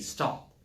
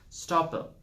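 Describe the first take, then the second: First: The final p is cut off with no vowel. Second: An extra vowel sound follows the final p. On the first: The speaker calls it right. "the sound should also stop, the air should stop coming out of your mouth" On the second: The speaker calls it wrong. "people stretch words"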